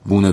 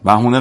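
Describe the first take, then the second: First: The middle h sound is dropped entirely. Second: The middle h sound is clearly pronounced. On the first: The speaker calls it right. "بونه درسته" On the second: The speaker calls it wrong. "بهونه غلطه آقا"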